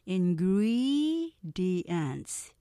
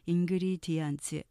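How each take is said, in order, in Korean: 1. 두 번째 음절은 강하고, 나머지는 약해요. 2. 모든 음절이 고르고 뚝뚝 끊겨요. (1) "4음절로 하면서 두 번째 액센트 강조돼요. 다시 한번 들어보시면" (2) "이렇게 한국어의 스타카토로 발음하시는 분은 리스닝 잘 안 들리실 거예요"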